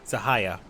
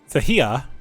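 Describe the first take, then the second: First: The middle syllable sounds like 'high'. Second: The middle syllable sounds like 'he'. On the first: The speaker calls it right. "as opposed to hi, so it's Zahaya" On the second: The speaker calls it wrong. "I was saying he as in he"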